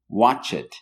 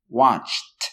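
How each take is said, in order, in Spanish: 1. La terminación es una sílaba extra 'id'. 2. La terminación es un sonido 't' corto. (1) "siempre quieran pronunciar la ed al final del verbo" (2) "va a sonar en esta cuestión, en este verbo, como la T"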